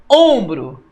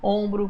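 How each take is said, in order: First: Ombro with a loud, heavy first syllable OM; Ombro, OM hit hard, then falling; stress on OM. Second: Said in the usual way. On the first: Shown as a demonstration. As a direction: punch the start of Ombro. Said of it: "O on é o mais forte". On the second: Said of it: "tudo certo".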